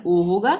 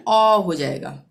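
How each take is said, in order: First: ओ as a close, rounded "oh"; close o sound. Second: ओ opened out to a held "aw"; open aw sound. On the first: Teacher recapping the OA rule, ओ as close "oh". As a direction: say ओ like the vowel in "goat". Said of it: "ओ ए का उच्चारण ओ होगा". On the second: Teacher recapping OA before R, ओ as open "aw". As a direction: say ओ as open "aw", not "oh". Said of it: "ओ ए के बाद आर आ जाएगा". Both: Shown as a demonstration.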